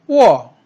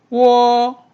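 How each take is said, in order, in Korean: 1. 음높이가 높은 데서 낮은 데로 급하게 떨어져요. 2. 음높이가 높고 평평하게 유지돼요.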